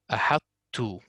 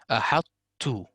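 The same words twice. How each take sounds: No difference in how they are said.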